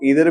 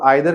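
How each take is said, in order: First: The first vowel sounds like 'ee'. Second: The first vowel sounds like 'eye'. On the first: "American accent में" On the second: "British accent में"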